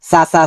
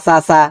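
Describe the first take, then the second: No difference in how they are said.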